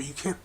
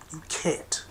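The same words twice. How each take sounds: First: Said in the usual way. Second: Whispered you can't. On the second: Real, not acted. Hammering his point to listeners, whispered.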